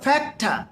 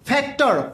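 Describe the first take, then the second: First: The word ends in an uh vowel, no r. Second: The word ends with a clear r sound. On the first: The speaker calls it right. "মনে রাখবেন এটা ঠা হবে" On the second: The speaker calls it wrong. "ডক্টর ফক্টর সেক্টর মক্টর সব ভুল"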